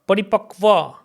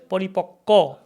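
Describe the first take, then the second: First: The cluster is said as k followed by v. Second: The cluster is said as a doubled k. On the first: The speaker calls it wrong. "but no, we don't say Va" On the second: The speaker calls it right. "We say Paripakko"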